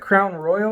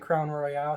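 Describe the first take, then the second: First: The name is said the ordinary, plain way. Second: The name is said with a fancy-sounding ending.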